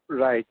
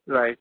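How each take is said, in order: Both takes have the same delivery.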